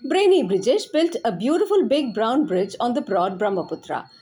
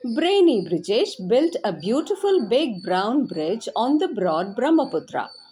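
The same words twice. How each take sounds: First: It is said very fast. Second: It is said fast.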